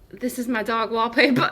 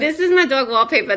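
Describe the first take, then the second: First: It is said in an old grandmother's voice. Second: It is said in Janice from Friends' voice.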